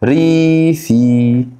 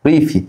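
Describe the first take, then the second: First: Teacher spelling out ريفي slowly; drawn-out ريفي. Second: Said in the usual way. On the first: Shown as a demonstration. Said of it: "يعني كلمه رورال، فاكر؟". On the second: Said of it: "يعني كلمه رورال".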